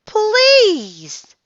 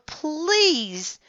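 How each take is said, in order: First: Please, shouted very high and loud. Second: Please, said high but at normal level; a small high begging please; pleading. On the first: Girl yells please at the octopus, very high and loud. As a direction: cry out please with all she has. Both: A narrator's reading. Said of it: "Annie shouted at the octopus".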